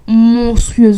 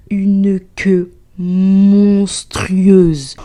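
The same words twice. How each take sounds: First: Monstrueuse said aloud and high, punched hard after the whisper; loud emphatic Monstrueuse; emphatic repeat. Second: Slow hushed whisper building suspense; drawn-out whisper on monstrueuse; dramatic whisper. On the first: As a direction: slam the word Monstrueuse out loud. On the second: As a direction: breathe it out slowly like a horror reveal. Dramatic reveal of the queue. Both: Acted.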